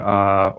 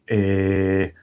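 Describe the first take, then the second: First: It is an 'uh' hesitation sound, English style. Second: It is an 'e' hesitation sound, Italian/Spanish style.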